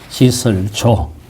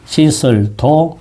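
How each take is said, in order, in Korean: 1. 마지막 음절은 j 소리로 시작합니다. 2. 마지막 음절은 d 소리로 시작합니다. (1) "두 가지 발음이 있습니다" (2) "두 가지 발음이 있습니다"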